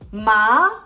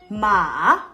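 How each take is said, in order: First: The pitch rises toward the end. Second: The pitch dips down, then goes up. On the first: "The second tone is the rising tone. It goes up" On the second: "The third tone, you are thinking"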